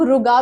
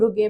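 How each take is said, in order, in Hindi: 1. शब्द 'ah' स्वर से खत्म होता है। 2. शब्द 'ay' स्वर से खत्म होता है। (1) "कुछ लोग रुगा भी प्रोनाउंस करते हैं" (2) "कुछ लोग रुगे भी प्रोनाउंस करते हैं"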